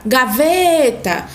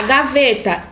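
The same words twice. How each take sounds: First: Gaveta with a long drawn-out VE; calling out. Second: Said in the usual way. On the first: Shown as a demonstration. Teacher calling a word as if calling someone, calling out. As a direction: call gaveta, stretching the stressed VE. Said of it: "como se tivesse chamando". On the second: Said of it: "fala essa palavra como se tivesse chamando".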